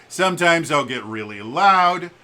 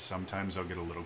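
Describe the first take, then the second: First: Loud, raised, projected voice; really loud. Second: Low, restrained delivery; a little quieter. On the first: Streamer showing how his volume changes, really loud. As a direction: push the voice out loud and higher. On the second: Streamer showing how his volume changes, a little quieter. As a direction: pull the voice down low and quick. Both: Shown as a demonstration. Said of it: "the volume of my speech".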